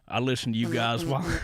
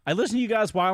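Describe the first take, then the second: First: It is read in an exaggerated Southern accent. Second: It is read in a plain, normal voice. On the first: It mocks the writer's background. The speaker calls it wrong. "making fun of people" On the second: It reads the words without mockery. The speaker calls it right. "in a normal voice"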